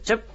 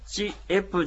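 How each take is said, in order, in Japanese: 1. 一息に言う。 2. 母音ごとに音節を分けて言う。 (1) "チェップとこう一息に発音します" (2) "チエプじゃなくて"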